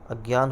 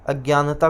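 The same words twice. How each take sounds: First: अज्ञान ending on the n; the short form अज्ञान, stopped after "gyaan"; correct अज्ञान. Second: अज्ञानता with an extra "ta" ending; the faulty long form अज्ञानता, ending in ता; wrong word अज्ञानता. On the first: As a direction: say अज्ञान as "agyaan", with no ta. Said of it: "अज्ञान बोलते हैं". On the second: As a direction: say अज्ञानता as "agyaanta". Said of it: "कुछ नहीं होता है". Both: Shown as a demonstration.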